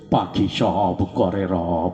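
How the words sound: It is recited as if chewing the cheeks. "গাল চাবাই চাবাই কথা কয়"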